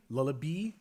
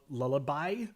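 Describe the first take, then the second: First: "lullaby" ending in "bee"; playful mispronunciation. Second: Said in the usual way. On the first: Shown as a demonstration. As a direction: say "lullaby" with the last syllable as "bee". Last syllable playfully changed to bee.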